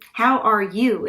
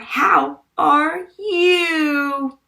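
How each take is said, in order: First: The words are spoken at a normal pace. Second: The words are drawn out and dramatized. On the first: The speaker calls it right. "How are you is how we say it" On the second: The speaker calls it wrong. "voice dragging"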